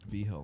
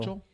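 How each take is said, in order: First: The name sounds like vee-heel, with an H sound. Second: The name sounds like the English word vigil. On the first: "It's V Hill everywhere else" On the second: "Do they pronounce it all Vigil?"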